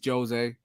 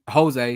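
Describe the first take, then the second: First: The J is pronounced as a hard sound. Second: The J is pronounced as a soft sound. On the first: "Jose in Portuguese ... it's a hard J" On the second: "they don't have the soft J"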